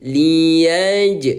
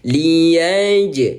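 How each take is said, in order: The two takes are said the same way.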